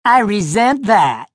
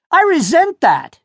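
First: "I resent that" aped with a lighter mocking edge; bully mimicking the boy's prim phrase; mocking imitation. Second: High, prim "I resent that"; stiff, old-fashioned protest; a boy sounding like his grandfather; indignant objection. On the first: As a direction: parrot the line back to ridicule him. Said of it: "Luke mocked him". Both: A narrator's reading.

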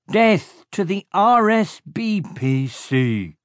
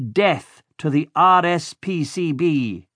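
First: Much higher, slow henchman voices getting R S B P C wrong; henchmen's muddled oath. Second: Higher, slow, solemn villain oath; villain leading a solemn oath; villain's oath. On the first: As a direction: parrot the oath clumsily, letters jumbled. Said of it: "they said". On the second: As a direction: spell out R S P C B letter by letter, slowly. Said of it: "repeat after me". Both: A narrator's reading.

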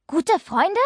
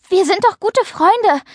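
First: High, quieter, sceptical echo question; restrained, annoyed doubt, pitched up; still cross. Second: High, earnest appeal to friendship; earnest, indignant high-pitched plea; indignant protest. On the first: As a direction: throw the words back as a sour question. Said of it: "Mia war noch immer sauer". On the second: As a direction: insist on the friendship, hurt and pitched up. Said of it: "Paula war ehrlich empört". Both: A narrator's reading.

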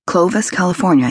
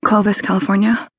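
First: Said in the usual way. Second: Put-on higher, rising young woman; Clovis, California with a rising lilt. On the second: A narrator's reading. Kelly voiced, rising.

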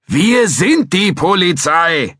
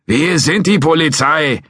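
First: „sind“ hit hard, slow and loud; stress on sind. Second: Insisting. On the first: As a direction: spell it out, punching „sind“. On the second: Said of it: "beharrte McCracken". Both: Acted.

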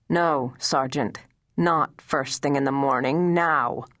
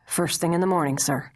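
First: The general overrules the sergeant, leaning on "Not" and "now"; firm correction. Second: Said in the usual way. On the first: Acted. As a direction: stress on "Not" in "Not first thing in the morning", then a firm "now". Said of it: "demand brusquely".

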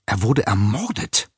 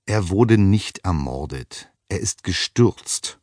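First: A light hiss on "Er wurde ermordet", stress on "wurde"; cleaning woman hissing to the professor. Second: Slow, deliberate, stress on "wurde" and "nicht"; firm correction. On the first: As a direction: hiss it as a dark secret. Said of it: "zischte die Frau". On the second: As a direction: set her straight, each word weighed. Professor firmly correcting the woman. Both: A narrator's reading.

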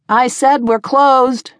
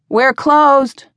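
First: Slow, higher, insistent call; loud and cold. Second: Raised, higher voice calling across the bar. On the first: Tavern keeper to a stranger ignoring her, loud and cold. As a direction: repeat it coldly, drawing the words out. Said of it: "her voice loud and cold". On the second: Tavern keeper to a late stranger, calling out. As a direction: call it out firmly to a newcomer. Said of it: "Emma called from behind". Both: A narrator's reading.

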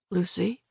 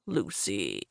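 First: Soft, weak questioning; faint. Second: Low, soft coaxing; cajoling. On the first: Injured driver checking on his passenger, faint. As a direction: call her name faintly. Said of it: "His voice sounded faint". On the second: Greg trying to talk Lucy round, cajoling. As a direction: coax her softly in a lower voice. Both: A narrator's reading.

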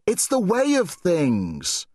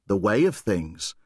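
First: Put-on girl's solemn urging. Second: Said in the usual way. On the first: Girl's quote, then echoed inward.

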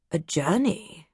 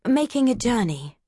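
First: Word savoured with distaste. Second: Said in the usual way. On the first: Acted. Doctor Nichols repeats Mary's word with mild distaste. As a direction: roll journey round the mouth as if it tastes bad. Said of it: "He rolled the word around in his mouth".

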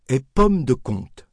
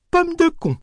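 First: Said in the usual way. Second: Put-on much higher, innocent old woman saying pomme de con; a hard-of-hearing grandmother proudly naming the apples; grandmother mispronouncing. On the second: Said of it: "les appelait innocemment".

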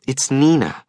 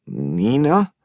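First: Said in the usual way. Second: Name asked back with a rising tune; puzzled echo. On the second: Acted. Hungover man repeats the caller's name, puzzled and rising. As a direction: echo the name, not placing her.

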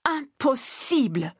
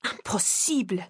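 First: Put-on higher, slow French-accented repeat; slow, higher insistent repeat in a French accent; strong French accent. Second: French-accented protest, lightly voiced; a hint of a French accent, first insistence; strong French accent. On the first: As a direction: drag out Impossible! in a heavy French accent, pitched higher. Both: A narrator's reading. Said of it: "repeating in his strong French accent".

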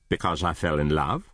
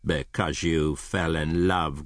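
First: Said in the usual way. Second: Slow, disdainful echo; growled. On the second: Acted. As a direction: repeat it slowly with a growling contempt. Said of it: "growled Scrooge".

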